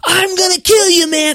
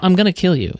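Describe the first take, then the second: First: It is said with a raised, loud voice. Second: It is said calmly, without raising the voice.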